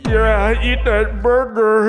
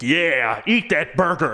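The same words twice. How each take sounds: First: It sounds slow, soft and sensual. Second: It sounds enthusiastic and commanding.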